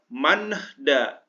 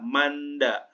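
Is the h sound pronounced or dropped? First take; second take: pronounced; dropped. First: The h sound is pronounced after n. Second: The h sound is dropped after n. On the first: The speaker calls it wrong. "nggak usah dibaca" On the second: The speaker calls it right. "hanya n-nya aja dibaca"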